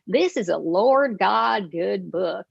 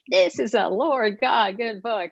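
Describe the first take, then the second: First: It is said in a stronger Southern accent. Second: It is said in her usual accent.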